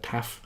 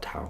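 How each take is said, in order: First: The word ends with an f sound. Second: The word ends with a vowel sound. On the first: This is how Greek speakers say it. "they pronounce it taf uh, in Greek" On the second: This is the usual English way of saying it. "but I'm going to call it tau"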